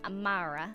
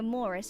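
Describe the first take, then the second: First: The middle vowel sounds like 'ah'. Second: The middle vowel sounds like 'oh'. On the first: This is one particular person's way of saying it. "she says Amara" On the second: This is the usual way to say the name. "she doesn't say Amora"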